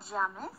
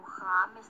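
First: "James" begun with a y-like sound; alternate name pronunciation. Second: "James" with a Spanish jota; alternate name pronunciation. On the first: Asking a chat friend's name, "James" with a y sound. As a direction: say "James" as "YA-mes", rising at the end. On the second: Correcting herself on a friend's name, "James" with jota. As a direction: say "James" as "HA-mes", with a breathy j. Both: Shown as a demonstration. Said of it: "no sé qué cosa".

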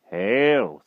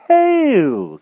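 First: Slightly raised, measured greeting; composed magician. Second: Very high, loud greeting; overeager knight. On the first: Magician greets king once more, composed. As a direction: intone it with composure. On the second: King returns magician's greeting, overeager. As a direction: sing it out far too heartily. King overdoes his reply. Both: A narrator's reading.

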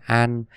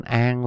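First: "an" with a clear final n; Northern Vietnamese "an", crisp n ending; Northern pronunciation. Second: "an" said as "ang"; Southern Vietnamese "an" with an ng ending; Southern pronunciation. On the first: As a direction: say "an" ending on the tongue-tip n. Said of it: "người miền Bắc sẽ đọc đúng ngay". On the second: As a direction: let the final n of "an" slide back to ng. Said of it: "một số người miền Nam". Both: Shown as a demonstration.

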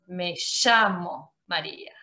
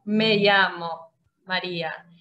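First: "llamo" said "shamo", the right way; "llamo" with a clear sh; Argentine sh. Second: "llamo" said "yamo", the wrong way; wrong y sound. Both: Shown as a demonstration.

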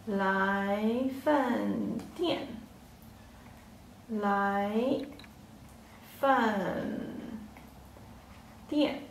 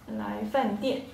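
First: 来饭店 drawn out, then 来, 饭 and 店 each alone with long pauses; slow, syllable by syllable. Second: Said in the usual way. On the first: Shown as a demonstration. Teacher slowly splits 来饭店 into syllables for learners. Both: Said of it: "Yeah, next word".

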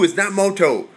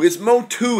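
First: Moto said as MOH-toh, the wrong version being rejected; wrong pronunciation quoted. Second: Motu said as MOH-too with a crisp t, higher pitch; correct pronunciation. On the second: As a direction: insist on Motu, MOH-too, not MOH-toh. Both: Shown as a demonstration.

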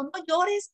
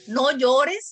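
First: High pleading. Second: Loud command. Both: Retold or imitated. Adult voice telling child.

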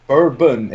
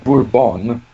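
First: "bourbon" as BUR-bun; drink pronunciation. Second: Slow "bourbon" as boor-BON; biscuit pronunciation. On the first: Explaining which one is the drink, "bourbon" as BUR-bun. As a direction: say "bourbon" with a short, unstressed ending. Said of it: "bourbon is the alcoholic drink". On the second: Explaining which one is the biscuit, slow boor-BON. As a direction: draw out "bourbon" with a full BON ending. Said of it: "is the biscuit". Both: Shown as a demonstration.

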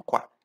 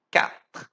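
First: Quatro said the Portuguese way, kwa-tro; mock wrong quatro. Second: Quatre whispered with a French R, katr; breathy French Quatre, not quatro. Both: Shown as a demonstration. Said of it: "Não quatro".

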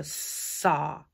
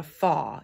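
First: "saw" said slowly with a clear s; slow, clear s sound in "saw"; right sound. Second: "faw" said with an f sound, like fall; "faw", f replacing the s; wrong sound. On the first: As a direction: stretch out "saw" so the s is clearly heard. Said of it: "So no f". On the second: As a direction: swap the s in saw for an f to show the wrong word. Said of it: "saw. It's not a faw". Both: Shown as a demonstration.

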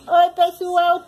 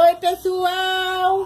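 First: Put-on quick upbeat greeting for the baby; chirpy hello voiced for the baby. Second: Put-on slow drawn-out sing-song for the baby; baby prompt. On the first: Mother greets viewers on the baby's behalf, bright and louder. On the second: Mother models a greeting for her baby, slow sing-song. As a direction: coax the baby to copy you, stretched and slow. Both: Shown as a demonstration.

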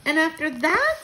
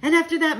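First: High, loud question rising on THAT; quivering with excitement. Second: "And after that" high and loud, then falling; emphatic answering tune. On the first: Child presses grandmother for more, excited question. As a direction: ask "And after that?" eagerly, pitch climbing at the end. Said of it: "I said, quivering with excitement". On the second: Grandmother answers the child, "And after that" as falling statement. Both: A narrator's reading.

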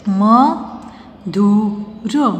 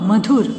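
First: म, धु, र with long pauses between sounds; syllable by syllable. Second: Said in the usual way. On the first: Shown as a demonstration. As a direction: sound out म, धु, र one at a time. (म, धु, र अलग-अलग, रुक-रुक कर) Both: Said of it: "sound pronounce करके देख लीजिए".

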